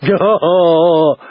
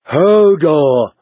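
First: Drawn-out, owl-like hoot; slow hooting call; Hodor hooting. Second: Short bellowed exclamation; mildly raised simple-man call; Hodor exclaiming. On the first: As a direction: hoot the word in two long syllables. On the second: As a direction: call it out in one push. Hodor calls out on seeing Sam. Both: A narrator's reading.

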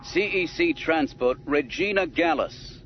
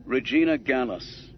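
First: Gruff officer hailing a ship; gruff Imperial. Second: Lightly voiced smooth officer; a touch of smooth authority; smoother Imperial. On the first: Gruff Imperial officer hailing the disguised Falcon, gruff. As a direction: bark it out like an Imperial. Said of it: "a gruff Imperial voice said". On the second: Star Destroyer officer hailing the Falcon, smoother voice. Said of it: "a smoother voice said". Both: A narrator's reading.

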